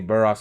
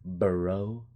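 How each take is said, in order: First: The name ends with a sounded 'ks'. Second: The name ends in a plain vowel, no 'ks'. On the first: The speaker calls it wrong. "that's why I say Burrox. I'm just being stupid" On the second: The speaker calls it right. "It's Burrow"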